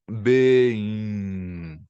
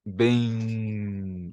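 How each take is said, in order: First: Bem with nasal glide, mouth barely open; Portuguese nasal bem. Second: Bem nasalized with mouth hardly opening; Portuguese nasal bem. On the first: Teacher demonstrating the lazy Portuguese Bem. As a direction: let Bem slide nasally without closing. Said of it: "Tipo isso". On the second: Teacher showing how Brazilians nasalize Bem. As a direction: say Bem lazily, mouth nearly shut. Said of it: "nem sequer abre a boca". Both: Shown as a demonstration.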